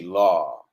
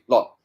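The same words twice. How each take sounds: First: The vowel is drawn out and long. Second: The vowel is clipped and short. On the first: The speaker calls it right. "It's a long word" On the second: The speaker calls it wrong. "you don't say law"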